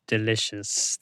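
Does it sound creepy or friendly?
creepy. It is said in a creepy, stalker-like way.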